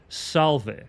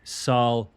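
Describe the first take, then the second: First: The letter v is sounded as v. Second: The letter v is sounded as w. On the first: The speaker calls it wrong. "it shouldn't be pronounced salve" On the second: The speaker calls it right. "the V was a W sound"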